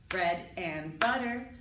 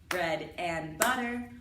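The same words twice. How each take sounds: Both takes have the same delivery.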